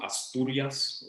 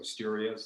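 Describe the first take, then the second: First: The name is pronounced in a Spanish way. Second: The name is pronounced in an English way.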